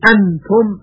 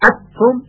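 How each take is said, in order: First: The n is pronounced clearly with the tongue tip. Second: The n is fully merged into the t. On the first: "یعنی نون اظهار نمیشه، انتم غلط هست" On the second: "و ادغام هم نمیشه، انتم این هم بسیار اشتباه هست"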